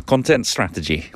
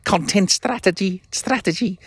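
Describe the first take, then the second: First: Everyday Lancashire voice; Lancashire accent. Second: High-pitched mock Scouse; hammed-up Scouse attempt; bad Scouse accent. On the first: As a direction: drop back down into plain Lancashire. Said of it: "I'll stick to my Lancashire". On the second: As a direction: push it way up into shaky-attempt Scouse. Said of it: "a Scouse accent". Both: Shown as a demonstration.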